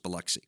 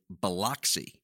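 First: The name is said as locals say it. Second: The name is said as an outsider reads it. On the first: The speaker knows the town. The speaker calls it right. "It's pronounced Biloxi" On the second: The speaker does not know the town. The speaker calls it wrong. "someone who has no idea what the town is, and they're simply reading a word off of a page"

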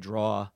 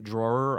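First: The word ends without an r sound. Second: The word ends with an r sound. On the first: The speaker calls it wrong. "I would say draw" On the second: The speaker calls it right. "instead of saying drawer"

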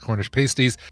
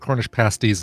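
First: The first vowel of pasties sounds like pastry. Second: The first vowel of pasties sounds like past. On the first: It names what strippers wear. The speaker calls it wrong. "not Cornish pasties, because that's what strippers wear" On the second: It names the meat-filled pastry. The speaker calls it right. "They're Cornish pasties"

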